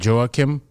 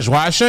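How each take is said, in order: First: The name is pronounced the American English way. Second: The name is pronounced the French way. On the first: "sometimes I try to Americanize it for people. I would say Joachim" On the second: "Joachim is how you say it, like the French way"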